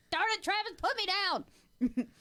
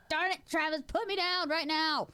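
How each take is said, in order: First: High, slow, whiny protest; high whiny hammed-up protest; mock protest. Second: Hammed-up whiny demand; mock protest. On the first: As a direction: squirm and demand to be put down. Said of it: "I'd go like". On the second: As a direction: insist while flailing. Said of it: "I'm like".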